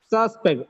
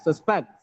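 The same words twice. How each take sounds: First: The stress is on the first syllable. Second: The stress is on the second syllable. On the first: It is used as a noun. "Noun. Sus is first syllable stressed" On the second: It is used as a verb. "Second syllable stress, as it is a verb"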